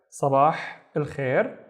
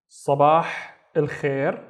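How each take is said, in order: First: Slow repeat. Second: Sabah, pause, al khair; word by word. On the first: Teacher repeating the greeting. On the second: Teacher reviewing good morning, Sabah al khair in pieces. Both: Shown as a demonstration.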